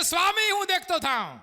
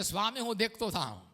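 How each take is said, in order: First: Higher, stronger સ્વામી, હું દેખતો થાઉં. with Swami pressed; raised plea. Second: Soft quiet સ્વામી, હું દેખતો થાઉં; quiet plea. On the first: Blind man crying to the Lord, raised and urgent. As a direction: cry the request out boldly. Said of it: "એ કહે છે". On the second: Blind man asking the Lord, quiet and humble. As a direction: say it softly, a humble request. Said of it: "તો કહે છે". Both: Shown as a demonstration.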